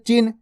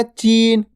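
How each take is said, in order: First: चिन with a quick, short i. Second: चीन with a held, long ee. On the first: Teacher showing the small vowel sign, चिन with a brief i. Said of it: "छोटी ई की मात्रा". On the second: Teacher showing the big vowel sign, चीन with ee held long. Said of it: "बड़ी ई की मात्रा". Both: Shown as a demonstration.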